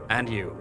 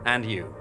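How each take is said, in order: Both takes have the same delivery.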